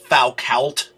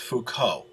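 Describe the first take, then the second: First: The name is pronounced the way English spelling suggests. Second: The name is pronounced the French way. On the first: The speaker calls it wrong. "you might be tempted to say that that's Foucault" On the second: The speaker calls it right. "that's a French name. It's Foucault, the way it's pronounced"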